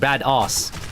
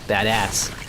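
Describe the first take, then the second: First: It is said with a non-American pronunciation. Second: It is said with a casual American pronunciation. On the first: The speaker calls it wrong. "imagine we pronounce bad ass. It does not go. It just sounds weird" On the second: The speaker calls it right. "It's the way Americans pronounce words, right? You're very casual"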